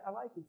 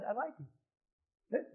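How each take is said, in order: First: Said in the usual way. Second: Drawn out, very slow; slow confession. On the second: Shown as a demonstration. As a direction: let them drag out the confession, slowly. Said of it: "Say it".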